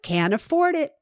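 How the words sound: It is said in a joyful, light tone. Not having the money is no big deal. The speaker calls it right. "You have to have joy in your voice"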